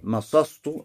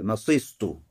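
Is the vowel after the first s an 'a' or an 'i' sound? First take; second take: a sound; i sound. First: The vowel after the first s is a. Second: The vowel after the first s is not a. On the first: "с фатхой в прошедшем времени" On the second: "Это первый вариант"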